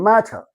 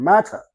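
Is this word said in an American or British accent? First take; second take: British; British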